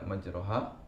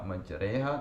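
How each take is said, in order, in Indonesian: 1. Vokal setelah r adalah a terbuka penuh. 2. Vokal setelah r condong ke e. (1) "tidak majroha" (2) "dibaca majreha"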